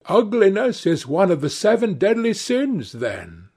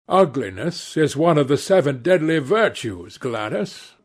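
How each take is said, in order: First: Lightly voiced Duchess, pitched up; a higher, mildly exclaiming society lady; Duchess crying out. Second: Lightly voiced Lord Henry, even pitch; reply composedly in the reader's middle register; Lord Henry correcting. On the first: Duchess challenging Lord Henry, mild high-pitched cry. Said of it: "cried the Duchess". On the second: Lord Henry correcting Gladys, lightly voiced composed retort. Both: A narrator's reading.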